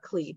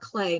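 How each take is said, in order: First: The vowel sounds like the 'ee' in see. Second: The vowel sounds like the 'ay' in day. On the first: The speaker calls it wrong. "not Klee, but I always mispronounce it" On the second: The speaker calls it right. "guess he's called Clay"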